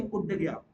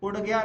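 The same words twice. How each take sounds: First: उड़ said with a firm d stop in place of the flap; corrected pronunciation. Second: Said in the usual way. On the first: Shown as a demonstration. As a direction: say उड़ with a hard retroflex d, falling tune. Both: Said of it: "उड़ गया नहीं".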